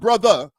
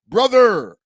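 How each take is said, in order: First: The word ends without a strong 'er' sound. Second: The word ends with a strong 'er' sound. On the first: The speaker calls it wrong. "not brother" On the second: The speaker calls it right. "with the E R"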